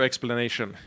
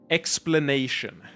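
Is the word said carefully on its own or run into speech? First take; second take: run in; carefully. First: The word is run quickly into a full sentence. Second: The word is said slowly and carefully on its own. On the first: The speaker calls it wrong. "when I talk in a sentence, it comes out wrong" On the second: The speaker calls it right. "When I intonate like that, it's fine"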